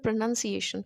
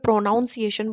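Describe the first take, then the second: First: The word is said smoothly, like a fluent speaker. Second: The word is said in a stilted, odd way. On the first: The speaker calls it right. "तो आपको बहुत fluent, as a fluent speaker लगेगा" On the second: The speaker calls it wrong. "तो वो थोड़ा सा अजीब होगा, वियर्ड होगा।"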